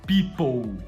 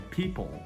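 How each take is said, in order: First: The final L sounds like a U. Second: The final L is a clear L sound. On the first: The speaker calls it wrong. "Não é people" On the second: The speaker calls it right. "é people"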